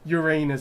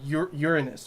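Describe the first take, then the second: First: The name is said the silly, joking way. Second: The name is said in its plain, serious way.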